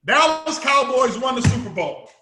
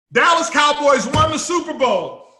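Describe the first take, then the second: First: Said in the usual way. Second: Loud, higher victory call; loud celebration of a known result; triumphant shout. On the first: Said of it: "somebody told you". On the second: Acted. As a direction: shout the win like it's already done.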